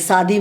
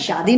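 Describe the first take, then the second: First: The word begins with a plain s sound. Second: The word begins with an sh sound. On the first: The speaker calls it wrong. "सा बोलते हैं" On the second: The speaker calls it right. "शा शुद्ध शब्द है"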